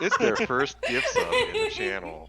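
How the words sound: It is read in an announcer voice.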